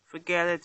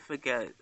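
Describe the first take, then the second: First: Said in the usual way. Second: "forget it" dropping lower and softer; trailing off. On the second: Real, not acted. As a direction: let "forget it" fade out in resignation.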